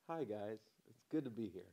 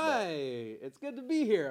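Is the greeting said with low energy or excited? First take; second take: low energy; excited. First: It is said calmly with little energy. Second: It is said loudly with lively excitement.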